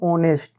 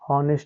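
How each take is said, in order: First: The word starts with no h sound. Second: The word starts with an h sound. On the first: The speaker calls it right. "एच का उच्चारण नहीं करेंगे" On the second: The speaker calls it wrong. "एच वाला भी पढ़ते हैं, जबकि ये पढ़ने का तरीका बच्चों क्या है, गलत है"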